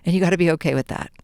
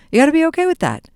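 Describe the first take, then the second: First: Said in the usual way. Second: Higher, insistent repeat; emphatic repeat. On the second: Shown as a demonstration. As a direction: say it again, pitched up and firm.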